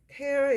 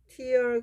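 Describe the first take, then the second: First: The vowel sounds like the word 'air'. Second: The vowel sounds like the word 'ear'. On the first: It means to rip apart. "tear 이렇게 발음하면 찢다 이런 뜻이에요" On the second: It means a drop from the eye. "tear 그러면 눈물이고"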